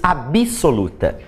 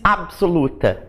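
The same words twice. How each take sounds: First: An extra i vowel is heard after the b. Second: The b goes straight into the s, no vowel. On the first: "A gente coloca aqui um i que não existe" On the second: "quem é que diz absoluta?"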